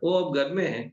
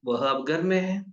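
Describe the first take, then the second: First: The first word is pronounced 'o'. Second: The first word is pronounced 'vah'. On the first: This is how people say it in everyday speech. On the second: This is the formal standard form.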